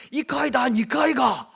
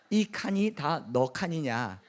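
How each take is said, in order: First: Loud, high Gyeongsang retort; Gyeongsang dialect. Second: Said in the usual way. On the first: Acted. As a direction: fire back in booming Gyeongsang dialect. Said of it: "이렇게 했더니 경상도 사람". (경상도 사투리로 크게 쏘아붙이듯) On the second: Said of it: "못 알아들었죠?".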